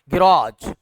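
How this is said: British accent, stress on the last syllable.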